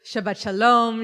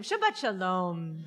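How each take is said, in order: First: A big, louder Shabbat greeting to the room. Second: Slow, drawn-out Shabbat shalom; slower greeting. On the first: Rabbi greeting the congregation at the start, louder. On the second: Rabbi retrying the greeting with the congregation, slowly. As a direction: savor each word of the greeting. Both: Real, not acted. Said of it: "Let's try one more time".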